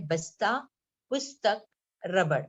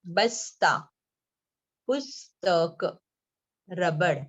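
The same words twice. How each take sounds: First: Said in the usual way. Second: बस्ता, पुस्तक, रबड़ drawn out syllable by syllable, with pauses; word by word. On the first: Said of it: "पढ़ के दिखा रही हूँ". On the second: Shown as a demonstration. Teacher reading out book words for children to follow, word by word. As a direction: read बस्ता, पुस्तक, रबड़ slowly and firmly, one at a time. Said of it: "मैं एक एक शब्द पढ़ रही हूँ".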